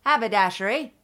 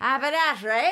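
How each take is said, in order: First: Tentative Cockney attempt with the H sounded in Haberdashery; almost Cockney. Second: Higher put-on Cockney with no H at the start of Haberdashery; Cockney, H dropped. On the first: Co-host testing an accent for the shopkeeper, near-Cockney. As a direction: try a slight Cockney accent, keeping the H. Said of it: "That was almost Cockney". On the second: Co-host trying again after coaching, H-less Cockney. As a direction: say it in mock Cockney, starting on the vowel. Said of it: "Drop the H".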